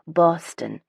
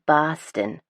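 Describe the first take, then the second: First: Boston with every sound crisp, the t and n clear; proper enunciated Boston. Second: Boston the Southie way, dropped r, broad vowel; Southie Boston accent. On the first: Narrator mocking North Shore pronunciation, prim clearly enunciated. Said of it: "a very proper, clearly enunciated". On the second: Narrator showing how Southie locals say it, Southie Boston accent. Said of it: "If you're from Southie, it's". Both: Shown as a demonstration.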